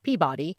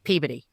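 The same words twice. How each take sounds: First: It is pronounced the way outsiders say it. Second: It is pronounced the local New England way. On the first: The speaker calls it wrong. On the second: The speaker calls it right.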